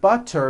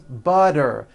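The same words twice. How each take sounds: First: The middle consonant is a clear T sound. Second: The middle consonant is a voiced D sound.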